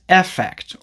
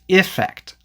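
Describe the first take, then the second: First: The first vowel is a short e, as in 'men'. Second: The first vowel is a short i, as in 'sit'. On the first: "the E is usually pronounced as the short E sound" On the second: "the E is usually pronounced as the short I sound"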